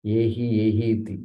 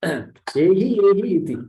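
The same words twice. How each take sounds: First: Said in the usual way. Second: Higher and louder, calling out come here; eager welcoming call. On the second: Retold or imitated. Adityas welcoming the arriving soul, called out eagerly. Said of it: "They will call you".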